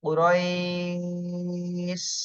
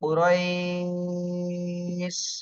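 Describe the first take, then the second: No difference in how they are said.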